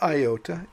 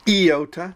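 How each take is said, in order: First: It begins with an eye vowel sound. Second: It begins with an ee vowel sound. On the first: The speaker calls it wrong. "not iota" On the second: The speaker calls it right. "Iota as I in magazine"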